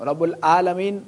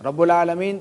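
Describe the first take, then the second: First: "العالمین" with an open plain "aa" in place of ain; alif instead of ain. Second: "العالمین" with a throaty ain before the long a; correct ain. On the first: Teacher showing students the mistake, "العالمین" with plain alif for ain. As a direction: say "عالمین" as "aalameen", no throat squeeze. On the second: Teacher contrasting meanings for students, "العالمین" said with a throaty ain. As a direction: squeeze the throat at the start of "عالمین". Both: Shown as a demonstration. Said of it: "عین اور الف سے دیکھ کتنا فرق".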